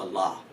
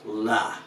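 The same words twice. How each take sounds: First: "la." with a broad L, not slender. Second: "La," with a slender L. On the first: Teacher gives the contrasting word, broad L. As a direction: say "la." with an unsoftened, broad L. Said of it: "as opposed to la". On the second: Teacher shows learners the E's effect, slender L. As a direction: say "La," with the L made slender. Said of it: "make the L slender". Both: Shown as a demonstration.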